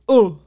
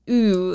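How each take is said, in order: First: The vowel is an 'oh' sound. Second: The vowel is a long 'ooh' sound. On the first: The speaker calls it right. "it's oh" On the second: The speaker calls it wrong. "So it's not so much ooh"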